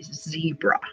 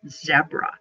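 First: It is said with an American pronunciation. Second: It is said with a British pronunciation. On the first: "in the United States, we say zebra" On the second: "On the TV show"

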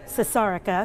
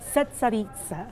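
First: The name is said with an American pronunciation. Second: The name is said with a local pronunciation. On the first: The speaker calls it wrong. "I was calling it Cesarica because, you know, I'm American" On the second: The speaker calls it right. "The waitress told me how to pronounce it"

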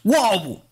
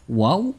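First: It falls sharply like an exclamation. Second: It rises at the end like a question.

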